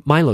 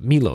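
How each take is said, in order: First: Milo starting like the word "my"; MY-low pronunciation. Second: Milo starting like the word "me"; MEE-low pronunciation. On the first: Podcaster weighing up the drink's price, Milo said MY-loh. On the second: Podcaster correcting the drink's name, Milo said MEE-loh. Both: Shown as a demonstration. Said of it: "or Milo, as to say".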